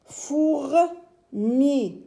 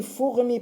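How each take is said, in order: First: "Fourmi" split as "Four", pause, "mi"; higher, slow "Four... mi" in two beats; syllable by syllable. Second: Said in the usual way. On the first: Shown as a demonstration. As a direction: sound out "Fourmi" with a gap before "mi". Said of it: "on va essayer de mettre les syllabes".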